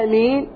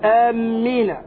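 First: The m sound is short and single. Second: The m sound is held long and doubled. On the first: It means O God, answer the prayer. The speaker calls it right. "أما آمين بالتخفيف لتخفيف الميم" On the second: It means people heading toward a place. The speaker calls it wrong. "ويقول آمين بتشديد الميم، هذا خطأ"

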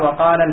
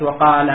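First: The word runs into the next with a short ending. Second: The word stops alone with a long final vowel. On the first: "ولكن عند الوصل يسقط على نفس التقاء الساكنين" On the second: "لو وقفت وقال"

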